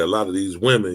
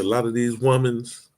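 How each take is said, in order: First: The last word ends without an added s sound. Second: The last word ends with an added s sound. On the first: "we'll say a lot of these women" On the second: "you always say woman's"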